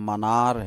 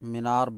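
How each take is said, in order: First: The first vowel is a short 'a' sound. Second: The first vowel is a long 'ee' sound. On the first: This is the correct form of the word. The speaker calls it right. "लेकिन सही लफ्ज मनार है" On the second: This is the everyday Urdu form. The speaker calls it wrong. "Urdu में मीनार मीनार बोलते हैं"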